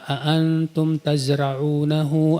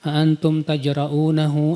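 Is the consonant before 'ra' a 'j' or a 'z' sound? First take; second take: z; j. First: The word is said with a 'z' sound. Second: The word is said with a 'j' sound. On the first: Did you plant it? The speaker calls it right. "yang harusnya membaca" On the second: Did you dare? The speaker calls it wrong. "Dia baca apa?"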